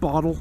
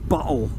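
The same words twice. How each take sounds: First: The middle T is soft and voiced. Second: The middle T is a hard stop. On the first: The speaker calls it right. "You know the word bottle?" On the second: The speaker calls it wrong. "We don't say bottle"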